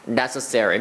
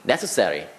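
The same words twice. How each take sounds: First: The r is a soft American r sound. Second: The r is said like a Korean l sound. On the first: The speaker calls it right. "그게 아니라 necessary. 미국인 특유만의 특유의 뭔가 좀 부드러운 느낌" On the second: The speaker calls it wrong. "우리나라 사람이면 necessary, necessary, necessary 뭐 이렇게 할 수밖에 없어요"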